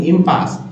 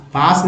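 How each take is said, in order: First: इम्पास with a clear इम; correct pronunciation. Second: पास alone, shown as the mistake; wrong reading. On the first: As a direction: stress इम in इम्पास. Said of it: "पास नहीं, इम्पास". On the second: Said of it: "पास नहीं". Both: Shown as a demonstration.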